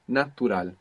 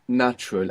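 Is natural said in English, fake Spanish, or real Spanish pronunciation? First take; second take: real Spanish; English. First: It has pure Spanish vowels and a clear T. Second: It is said with ordinary English sounds. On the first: "So you pronounce a T. A is like A, U is like U" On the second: "So you know natural"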